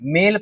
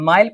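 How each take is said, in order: First: The vowel sounds like 'ay'. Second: The vowel sounds like 'eye'. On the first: The speaker calls it right. "नहीं मेल पढ़ते हैं" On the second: The speaker calls it wrong. "माइल पढ़ते हैं क्या"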